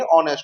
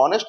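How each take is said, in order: First: ऑनेस्ट said with no h, starting on the vowel; ऑनेस्ट opening straight on the vowel, the correct way; silent h. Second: हॉनेस्ट said with a sounded h at the start; हॉनेस्ट with a breathy h at the start, the wrong way. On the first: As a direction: pronounce ऑनेस्ट as on-est, the h dropped. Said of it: "इसको पढ़ेंगे ऑनेस्ट". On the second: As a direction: pronounce हॉनेस्ट as hon-est, with the h heard. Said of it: "इसको हॉनेस्ट नहीं पढ़ेंगे". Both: Shown as a demonstration.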